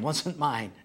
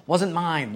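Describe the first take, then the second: First: Said in the usual way. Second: A touch louder, quick protest; defensive. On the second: Retold or imitated. Pastor defending himself to the couple, slightly louder. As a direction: blurt the denial. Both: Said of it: "I started to defend myself".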